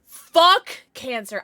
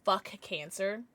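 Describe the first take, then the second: First: Fuck and cancer punched out slow and loud; emphatic fuck cancer. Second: Slower, softer, a gentle ask to the chat; slow fuck cancer. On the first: Leading the chat in a group declaration, loud and slow. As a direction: hit every syllable of Fuck cancer, hard. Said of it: "like, collectively agree?". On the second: Asking the community to say it, slow and soft. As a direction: ease it out, testing the words. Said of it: "just say". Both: Shown as a demonstration.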